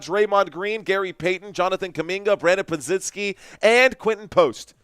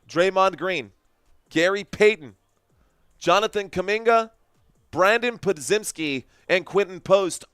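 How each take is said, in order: First: The names are rattled off quickly. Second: The names are said more slowly.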